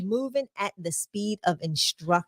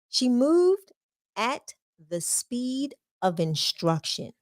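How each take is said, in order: First: It is said at a normal speed. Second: It is said slowly and deliberately.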